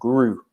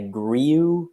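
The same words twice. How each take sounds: First: The word is said short and simple. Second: The word is said in an elaborate, complicated way. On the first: The speaker calls it right. "it's a quite short, easy grew" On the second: The speaker calls it wrong. "almost like a more complicated"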